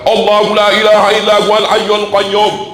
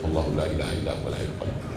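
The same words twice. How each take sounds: First: It is said loudly and strongly. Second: It is said softly and quietly.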